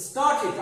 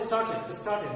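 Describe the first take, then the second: First: স্টার্টেড as "star-tid"; correct -id ending. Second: স্টার্টেড as "star-ted"; wrong -ted ending. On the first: Teacher models for viewers, স্টার্টেড with -tid. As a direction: end স্টার্টেড on a short i syllable. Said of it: "আমরা বলি". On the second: Teacher quotes the common mistake, স্টার্টেড with -ted. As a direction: open e in the end of স্টার্টেড. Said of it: "ভুল উচ্চারণ". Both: Shown as a demonstration.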